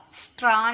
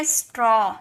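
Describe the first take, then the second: First: स्ट्रॉ said with open "aa": straa; mistaken "aa" sound. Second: स्ट्रॉ ending in rounded "aw": straw; correct "aw" sound. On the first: Teacher rejects the mistake, स्ट्रॉ as straa. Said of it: "स्ट्रॉ नहीं". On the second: Teacher models the word for students, स्ट्रॉ with rounded aw. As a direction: say स्ट्रॉ to rhyme with "law". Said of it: "ए डब्ल्यू का sound अ में निकला". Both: Shown as a demonstration.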